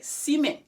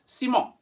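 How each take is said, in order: First: The second vowel sounds like English 'en'. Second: The second vowel is a nasal 'on' sound. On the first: The speaker calls it wrong. "you may be tempted to say N, like ciment" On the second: The speaker calls it right. "E N in French is on. So it's ciment"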